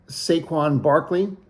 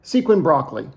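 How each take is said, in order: First: Said in the usual way. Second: Mock-confident "Sequin Broccoli" for Saquon Barkley; Nico's mispronunciation. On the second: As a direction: say the name as "Sequin Broccoli", falling at the end. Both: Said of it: "or as Nico would say".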